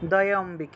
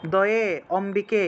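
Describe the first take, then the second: First: The two parts are joined into one word. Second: The two parts are said separately, with a break. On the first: The speaker calls it right. "এইভাবে একসাথে" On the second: The speaker calls it wrong. "এরকম আলাদা আলাদা উচ্চারণ করবেন না"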